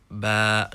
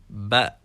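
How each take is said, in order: First: The vowel is stretched long. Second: The vowel is kept short. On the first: The speaker calls it wrong. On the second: The speaker calls it right.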